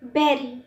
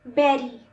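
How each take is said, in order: No difference in how they are said.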